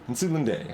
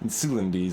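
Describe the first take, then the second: First: The last syllable ends in a 'day' sound. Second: The last syllable ends in a 'dee' sound. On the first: "Let's let's go day" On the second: "Insulindi sounds reasonable"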